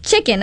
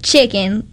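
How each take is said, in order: First: Said in the usual way. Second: Southern drawled Chicken; country Chicken. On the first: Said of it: "I didn't say, like". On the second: Shown as a demonstration. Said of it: "I didn't say, like, "chicken." I was like".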